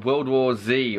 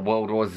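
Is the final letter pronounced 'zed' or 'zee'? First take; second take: zee; zed. First: The final letter is pronounced 'zee'. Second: The final letter is pronounced 'zed'.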